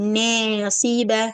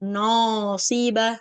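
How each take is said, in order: First: The first vowel is tilted toward an e sound. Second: The middle vowel is pushed up and raised. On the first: "இப்படி சாக்கவும் கூடாது" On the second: "இப்படி உயர்த்தவும் கூடாது"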